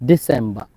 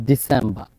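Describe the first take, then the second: Both takes have the same delivery.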